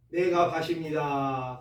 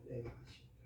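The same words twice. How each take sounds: First: Said in the usual way. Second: Whispered confession. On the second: Shown as a demonstration. Preacher repeating the confession to himself, whispered. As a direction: breathe "내가 밭입니다" as a soft whisper.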